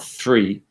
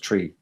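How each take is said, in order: First: It begins with a soft hissing 'th' sound. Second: It begins with a short stopped 't' sound. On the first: "the interdental fricative" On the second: "It uses a dental plosive"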